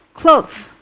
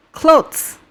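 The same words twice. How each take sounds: The two takes are said the same way.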